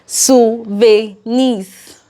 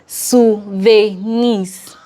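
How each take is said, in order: No difference in how they are said.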